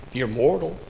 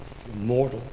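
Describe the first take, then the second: No difference in how they are said.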